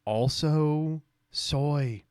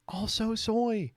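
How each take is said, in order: First: Very slow, stretched-out words; long, dragged mock verdict; drawn-out mocking. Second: High, slow mock voice; drawn-out high jeer; high-pitched mocking. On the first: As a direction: draw out both words mockingly. Mocks the post, says it twice. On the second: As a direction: pitch it way up and stretch it. Repeats the mockery higher.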